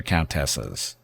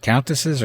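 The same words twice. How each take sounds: First: "countesses" as coun-TESS-es, clear "tess"; full middle syllable. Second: "countesses" as COUN-tuh-siz, weak middle vowel; reduced middle syllable. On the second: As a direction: stress the first syllable of "countesses", swallow the middle. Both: Shown as a demonstration. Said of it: "I don't know".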